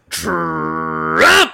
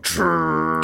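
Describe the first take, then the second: First: It is said louder. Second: It is said at normal, softer volume.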